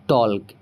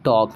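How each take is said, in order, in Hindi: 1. इसमें L की आवाज़ बोलते हैं। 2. इसमें L की आवाज़ नहीं बोलते। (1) "ना कि टॉल्क" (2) "हम इसे पढ़ेंगे टॉक"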